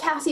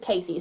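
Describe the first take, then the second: First: The first vowel sounds like the vowel in 'cat'. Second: The first vowel sounds like the vowel in 'case'. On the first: It follows the spelling of the name. "I say Cassie because that's how it's spelled" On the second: It is how most people say the name. "most people seem to pronounce this Casey"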